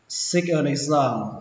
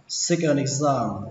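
The two takes are said the same way.

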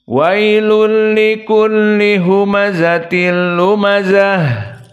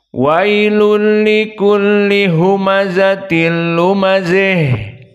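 First: The final vowel is an open a sound. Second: The final vowel leans toward i, like e. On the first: "difathahkan ha at-ta'nis" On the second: "dibaca dengan Al-Imalah Al-Kubra bifathiha at-ta'nis ... mendekati kepada kasrah"

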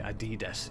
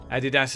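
First: It is pronounced the American way. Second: It is pronounced the British way. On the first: "In America and elsewhere seem to be Adidas" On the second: "Adidas is how we all say it in the UK"

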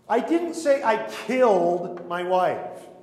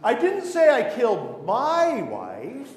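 First: The word "killed" is stressed. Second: The word "my" is stressed.

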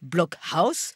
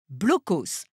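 First: The word is said with a German pronunciation. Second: The word is said with a French pronunciation. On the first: "je m'efforçais de prononcer à l'allemande" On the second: "prononcés à la française"

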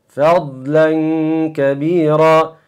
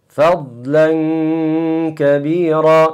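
No difference in how they are said.

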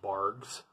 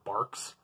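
First: The name ends with a g sound. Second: The name ends with a k sound. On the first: The speaker calls it wrong. "I always thought it was a G" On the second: The speaker calls it right. "I guess it's Barks, technically"

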